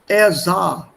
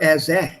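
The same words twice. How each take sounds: First: The vowel in sah is a plain 'ah'. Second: The vowel in sah is a different sound. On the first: The speaker calls it right. "Just follow the basic alphabet pronunciation" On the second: The speaker calls it wrong.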